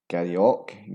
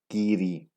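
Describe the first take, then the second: First: The name ends with an 'och' sound. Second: The name ends with an 'ee' sound. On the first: The speaker calls it wrong. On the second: The speaker calls it right. "The real pronunciation is Geary"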